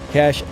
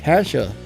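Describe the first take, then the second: First: The word has one syllable, ending in 'sh'. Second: The word has two syllables, ending in 'ah'. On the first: This is the pronunciation everybody usually uses. "Everybody always calls it Cash" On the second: This is the less familiar pronunciation a friend suggested. "Dan says it's pronounced Kasha"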